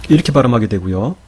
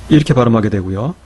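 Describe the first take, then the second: Both takes have the same delivery.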